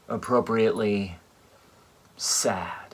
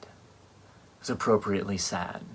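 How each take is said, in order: First: Hushed whisper, no voice. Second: Said in the usual way. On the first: Shown as a demonstration. Whispering sad at the funeral. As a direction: breathe the word sad out as a whisper.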